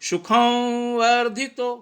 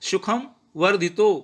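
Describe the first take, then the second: First: The nasal blends into the following v sound. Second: The nasal is pronounced as a plain m sound. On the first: The speaker calls it right. "लेकिन हमने कैसे बोलना है" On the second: The speaker calls it wrong. "जैसे normal कोई सामान्यता कोई पढ़ता है तो कैसा आता है"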